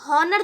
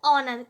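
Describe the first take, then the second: First: The word begins with an h sound. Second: The word begins directly with a vowel. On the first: The speaker calls it wrong. "यहाँ पर आप हॉनर तो पढ़ेंगे नहीं" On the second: The speaker calls it right. "एच यहाँ पर भी क्या है साइलेंट"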